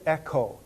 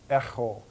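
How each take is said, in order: First: The middle consonant is a plain, crisp k sound. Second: The middle consonant is made far back, rasping. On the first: "to say echo is fine for right now" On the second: "more in the back part of my mouth"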